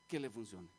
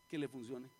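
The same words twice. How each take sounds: First: "Que le funcione" very low, falling to a close; grave repetition. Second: "Que le funcione" dropped low, ending slightly up; grave answer. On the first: Preacher driving the danger home, low falling "Que le funcione". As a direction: let "Que le funcione" sink with finality. Repeats the answer for weight. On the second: Preacher naming the greatest danger, low and grave on "Que le funcione". Answers own question, then repeats it. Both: Real, not acted.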